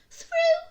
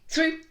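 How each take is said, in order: First: It is said at normal speed. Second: It is said very quickly.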